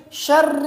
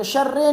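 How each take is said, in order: First: "شر" drawn out as "sharri"; correct short i. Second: "شر" ending in e, as "sharre"; wrong vowel. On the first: Teacher corrects the vowel, short i. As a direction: say "شر" slowly, ending in a clear i. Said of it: "نہیں ہے بلکہ". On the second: Teacher rejects the mistake, e for short i. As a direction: say "شر" with an e at the end. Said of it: "یہاں پر بھی شر پڑھتے ہیں". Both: Shown as a demonstration.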